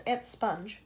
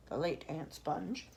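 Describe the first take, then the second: First: Said in the usual way. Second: Slow, soft correction on late; self-correction. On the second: Shown as a demonstration. Narrator correcting herself about Aunt Sponge, stressing late. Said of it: "I mean".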